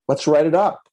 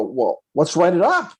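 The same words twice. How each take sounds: First: Said in the usual way. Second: "write it up" drawn out, rising high on UP; insistent repeat. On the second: Retold or imitated. Agent restating the obvious to the buyer, insistent rising "write it up". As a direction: spell out "write it up" slowly, lifting UP.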